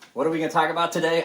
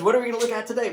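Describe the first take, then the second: First: The voice sounds low and depressed. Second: The voice sounds bright and cheerful.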